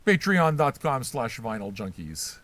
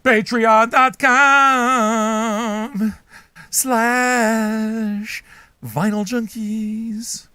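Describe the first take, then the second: First: Said in the usual way. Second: Slow, booming, higher announcer drawl; drawn-out plug. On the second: Acted. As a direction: stretch every word, very slow, high and loud.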